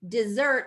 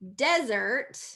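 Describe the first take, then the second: First: The stress is on the second syllable. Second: The stress is on the first syllable. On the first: "That second syllable stress" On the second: "desert is first syllable stress"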